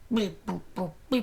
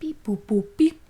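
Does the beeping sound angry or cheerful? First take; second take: angry; cheerful. First: The beeps sound angry and menacing. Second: The beeps sound cheerful and friendly.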